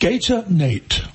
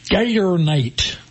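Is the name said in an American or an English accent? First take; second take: English; American. First: It is said in an English accent. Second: It is said in an American accent. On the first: "it sounds so much better when I say it in English" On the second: "I'll do it in American for everybody"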